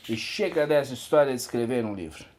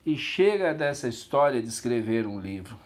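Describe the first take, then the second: First: Fast, run-together delivery; brisk rush through the whole sentence; quicker retake. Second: Said in the usual way. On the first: Acted. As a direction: rattle the line off quickly. Repeats the line at quicker pace.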